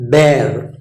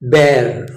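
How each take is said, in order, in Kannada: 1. ಸ್ವರ 'bare' ನಲ್ಲಿರುವ ಹಾಗೆ ಇದೆ. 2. ಸ್ವರ 'bare' ನಲ್ಲಿರುವ ಹಾಗೆ ಇದೆ.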